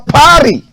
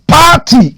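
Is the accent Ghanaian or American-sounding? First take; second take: American-sounding; Ghanaian. First: It is said in an American-sounding accent. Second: It is said in a Ghanaian accent.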